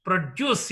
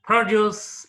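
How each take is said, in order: First: Produce as pro-DUCE, weight on the end; second-syllable stress. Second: Produce as PRO-duce, loud opening syllable; first-syllable stress. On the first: Teacher contrasting verb with noun, produce stressed on second syllable. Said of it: "The stress is marked on the second syllable". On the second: Teacher contrasting noun with verb, produce stressed up front. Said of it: "produce is noun". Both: Shown as a demonstration.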